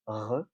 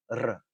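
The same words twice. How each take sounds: First: The r is a rasping sound at the back. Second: The r is a rapid tongue-tip trill. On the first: "the French R, which is a velar fricative" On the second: "the Spanish R, which is an alveolar trill"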